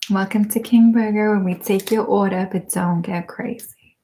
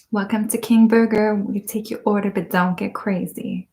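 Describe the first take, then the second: First: Bon Qui Qui impression. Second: Lightly voiced fast-food cashier with attitude; a hint of a sassy cashier; Bon Qui Qui impression. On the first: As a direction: play the cashier with attitude, barely changed. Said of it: "I could play that character so well". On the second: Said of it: "That's the one, right?".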